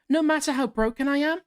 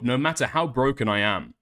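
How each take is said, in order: First: It is read in a put-on high voice. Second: It is read in a put-on deep voice. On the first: "you gotta do a higher voice" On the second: "puts on a deeper voice"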